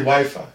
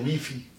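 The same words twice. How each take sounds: First: Both vowels are pronounced as 'eye'. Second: Both vowels are pronounced as 'ee'. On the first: This is how English speakers say it. "they don't say Wi-Fi" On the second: This is how Europeans say it. "In Europe, all the I is the E sound. that's why they say Wi-Fi"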